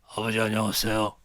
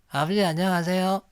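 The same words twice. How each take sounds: First: It is said in a tough, rough voice. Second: It is said in a quiet, gentle voice.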